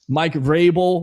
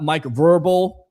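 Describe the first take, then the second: First: The surname starts with a V-R-A sound. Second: The surname sounds like the word verbal. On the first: The speaker calls it right. "I know how to pronounce it" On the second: The speaker calls it wrong. "It's not Mike Verbal"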